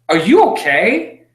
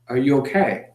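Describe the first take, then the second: First: It sounds mocking and sarcastic. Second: It sounds warm and genuinely caring. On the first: The asker is needling rather than caring. "a sarcastic way of communication" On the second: The asker truly wants to know and cares. "asked out of a place of love"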